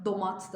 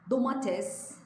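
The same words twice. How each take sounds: First: "domat" cut off after the t; two-syllable "domat"; regional short form. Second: "Domates" higher, all three syllables; standard pronunciation. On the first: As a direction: drop the -es to make "domat". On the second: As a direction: keep the -es ending of "Domates". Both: Shown as a demonstration. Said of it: "domat da der bazıları".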